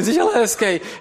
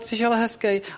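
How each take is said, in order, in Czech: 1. Říká se to jinou, výraznou intonací. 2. Říká se to prostou, obyčejnou intonací.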